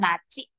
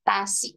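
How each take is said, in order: First: It has an n start and a c sound. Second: It has a t start and an s sound. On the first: "nah masih oke okay, ya, karena N-nya benar" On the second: "dia jawabnya tasi"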